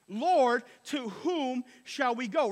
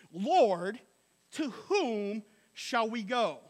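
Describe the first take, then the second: First: 2 declaring. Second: 2 sincere plea. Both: Retold or imitated. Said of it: "here's what Peter said".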